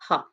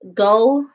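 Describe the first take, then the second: First: The name is said the Dutch way. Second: The name is said the American way. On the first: "That is the actual correct uh, pronunciation" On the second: "go is how Americans say it"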